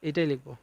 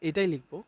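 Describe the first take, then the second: No difference in how they are said.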